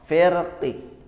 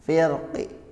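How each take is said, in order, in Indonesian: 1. Berakhir dengan vokal i yang lemah, setengah bersuara. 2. Berakhir dengan vokal i yang lemah, setengah bersuara.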